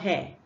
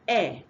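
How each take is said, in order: First: The H sound is pronounced. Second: The H sound is silent. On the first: The speaker calls it wrong. "If you pronounce it, you'll be saying hair" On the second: The speaker calls it right. "you must not pronounce this H"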